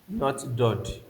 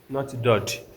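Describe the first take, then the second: Both takes have the same delivery.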